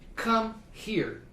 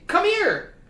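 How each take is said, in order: First: The two words are said separately. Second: The two words blend into one word. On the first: The speaker calls it wrong. "you don't say come here" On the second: The speaker calls it right. "You say come here"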